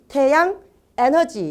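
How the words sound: The two words are said separately with a break. The speaker calls it wrong. "이렇게 따로 이렇게 떨어뜨려서 말씀하지 않습니다"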